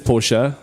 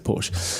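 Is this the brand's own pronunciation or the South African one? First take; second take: brand's own; South African. First: It is pronounced the way the brand says it. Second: It is pronounced the usual South African way. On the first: This is the official name of the brand. "the brand is Porsche" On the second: This is how locals commonly say the name. "as being in South Africa, we all say Porsche"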